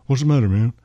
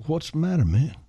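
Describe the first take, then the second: First: Amateur imitation of a famous singer's speech. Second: Higher-pitched, tentative imitation of the same singer. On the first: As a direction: have a firmer go at the famous Southern star's voice. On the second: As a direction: lightly imitate a concerned singer friend. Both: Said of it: "I can't imitate him. I wish I could".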